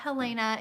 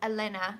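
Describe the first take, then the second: First: The name starts with an audible H sound. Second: The name starts directly with a vowel sound. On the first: The speaker calls it wrong. "we're saying her name wrong" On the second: The speaker calls it right. "the H is basically silent"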